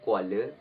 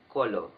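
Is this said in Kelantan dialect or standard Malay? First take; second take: standard; Kelantan. First: It is said in standard Malay. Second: It is said in Kelantan dialect.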